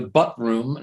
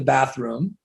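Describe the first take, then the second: First: The first vowel sounds like the one in 'cut'. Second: The first vowel sounds like the one in 'cat'. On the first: The speaker calls it wrong. "the butt room" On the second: The speaker calls it right. "not the bathroom"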